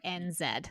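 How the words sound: The Z is said the New Zealand way, as zed.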